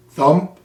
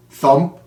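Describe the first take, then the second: No difference in how they are said.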